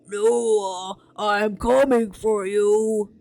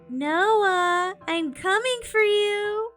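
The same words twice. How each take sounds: First: It is said in a gruff, low voice. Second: It is said in a normal voice.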